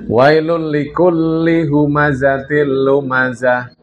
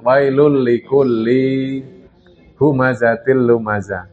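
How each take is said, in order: First: The vowel in likulli is kept short. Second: The vowel in likulli is dragged out long. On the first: The speaker calls it right. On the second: The speaker calls it wrong. "jangan diseret"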